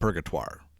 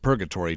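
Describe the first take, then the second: First: The name is said with a French pronunciation. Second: The name is said with an English pronunciation. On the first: This is how the early trappers said it. "the early French trappers would have pronounced it Purgatoire" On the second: This is how local people say it today. "the locals pronounce it Purgatory today"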